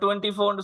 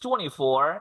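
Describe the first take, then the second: First: It is said with a local Tamil-English accent. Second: It is said with a native English accent. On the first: This is how local speakers say it. "நம்ம டுவெண்ட்டி ஃபோர் சொன்னா" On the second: This is how native English speakers say it. "அவன் just டுவெண்ட்டி ஃபோர் இப்படி பேசுவான்"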